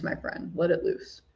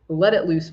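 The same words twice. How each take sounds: First: Soft whispered repeat, almost breathless. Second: Said in the usual way. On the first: Real, not acted. To a viewer inviting a heartfelt question, whispered. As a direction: drop to a whisper for the echo.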